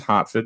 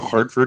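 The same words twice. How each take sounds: First: It is said in a Boston accent. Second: It is said in a standard accent. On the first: "it's Hartford sometimes" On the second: "Instead of Hartford"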